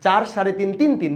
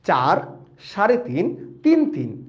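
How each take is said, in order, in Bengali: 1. সংখ্যাগুলো দ্রুত বলা হচ্ছে। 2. সংখ্যাগুলো ধীরে আর শান্তভাবে বলা হচ্ছে। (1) "তাড়াতাড়ি বলে ফেলছি" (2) "আস্তে ঠান্ডা"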